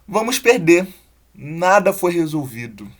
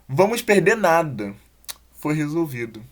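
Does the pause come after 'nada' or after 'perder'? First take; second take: after perder; after nada. First: The pause comes after 'perder'. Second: The pause comes after 'nada'. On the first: Nothing was solved and we will lose. "Ferrou, né?" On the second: We lose nothing because it was solved. "O que mudou foi a colocação da vírgula"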